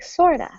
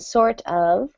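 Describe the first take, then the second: First: The word 'of' is reduced to a short 'a'. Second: The word 'of' is pronounced fully.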